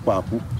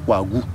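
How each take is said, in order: First: The middle consonant is a voiceless k. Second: The middle consonant is a voiced g. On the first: This is the traditional way the name is said. The speaker calls it right. "Ils vont chaque fois donner" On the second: This is how schooled people say the name. The speaker calls it wrong. "Vous n'allez pas entendre Kwagu. Kwagu, c'est ceux qui sont allés à l'école"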